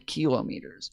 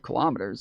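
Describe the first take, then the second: First: It uses the speaker's unusual reading pronunciation. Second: It uses the speaker's normal conversational pronunciation. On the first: The word is being read from text. "whenever I read it, I say kilometers" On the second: The word is said naturally in conversation. "I never say kilometers if I'm thinking and just saying things"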